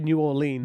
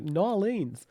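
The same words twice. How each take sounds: First: It is said in the speaker's ordinary accent. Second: It is said in a put-on New Orleans accent. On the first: "It might be New Orleans" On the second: "but said in a New Orleans accent. So New Orleans"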